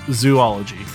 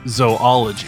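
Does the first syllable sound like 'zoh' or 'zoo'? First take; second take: zoo; zoh. First: The first syllable sounds like 'zoo'. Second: The first syllable sounds like 'zoh'. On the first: The speaker calls it wrong. "it's not zoology" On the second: The speaker calls it right. "It's either zoology or zoology"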